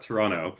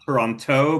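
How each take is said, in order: First: The second t sound is dropped entirely. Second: The second t sound is clearly pronounced. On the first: The speaker calls it right. "you dropped the second T in Toronto" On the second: The speaker calls it wrong. "Not Toronto"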